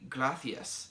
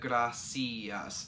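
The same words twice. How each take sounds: First: The C is said as a TH sound. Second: The C is said as an S sound. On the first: "the soft C's are lisped" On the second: "they use the C as an S sound"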